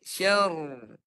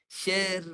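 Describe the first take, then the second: First: The r is said thick and heavy. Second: The r is said thin and light. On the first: The speaker calls it wrong. "Jangan tebalkan begini. ... Itu tebal" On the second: The speaker calls it right. "Dia ra-nya nipis"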